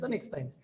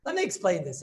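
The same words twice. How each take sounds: First: Said again, much softer, stress on "me"; softer repeat. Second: Said in the usual way. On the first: Shown as a demonstration. Rabbi repeats to his class, softer. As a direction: drop the volume on "Let me explain this.". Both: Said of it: "Yesterday I didn't explain this".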